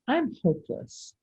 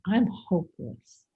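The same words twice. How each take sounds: First: It sounds upright and almost ridiculous. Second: It sounds heavy and deflated.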